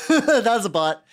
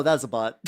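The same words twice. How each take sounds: First: Laughing. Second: Said in the usual way. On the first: Real, not acted.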